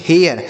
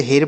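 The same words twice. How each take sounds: First: हेयर said as two parts, "he" then "yar", gliding into the r; correct reading. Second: हेर said as a short single vowel, like "hair" without the glide; wrong reading shown. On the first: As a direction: demo of the right way, हेयर. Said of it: "अब यह सही उच्चारण होगा". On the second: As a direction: deliberately read हेर as one clipped syllable. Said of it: "नहीं, बिल्कुल नहीं ऐसे पढ़ेंगे". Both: Shown as a demonstration.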